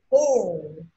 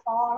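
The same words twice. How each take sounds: First: "full" drawn out in one long falling glide; slow model "full", vowel held long; corrected long vowel. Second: "four" said short, without the long glide; quick mistaken "four" as a learner might say; wrong short vowel. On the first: Teacher giving the right sound, long falling "full". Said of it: "nó sẽ là full". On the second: Teacher correcting the class, wrong short "four". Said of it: "không phải là four". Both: Shown as a demonstration.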